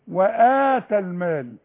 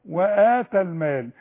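The two takes are said the same way.

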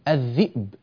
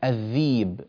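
First: The glottal stop is clearly pronounced. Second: The glottal stop is replaced by a long i.

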